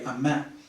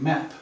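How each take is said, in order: First: The final P sound is dropped or unreleased. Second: The final P sound is clearly released. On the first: The speaker calls it wrong. "the Vietnamese student will say" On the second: The speaker calls it right. "instead of saying map"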